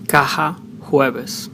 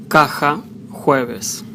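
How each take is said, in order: First: "caja, jueves" with J as the soft H in house. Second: "caja, jueves" with J as a strong rasped kh. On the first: Spanish teacher showing Latin American accent, "caja, jueves" with soft H for J. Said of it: "as an H in house". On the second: Spanish teacher showing Spain's variant, "caja, jueves" with strong kh for J. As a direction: say the J in "caja, jueves" hard at the back of the throat. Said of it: "Letter J sounds mostly strong". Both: Shown as a demonstration.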